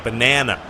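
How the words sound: It is said with an American accent.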